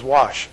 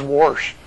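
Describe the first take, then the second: First: Wash with no R, clean "wahsh"; plain wash. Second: Wash said with an R, "warsh". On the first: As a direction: say wash with a short a and no R. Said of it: "she never says". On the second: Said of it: "She says". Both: Retold or imitated.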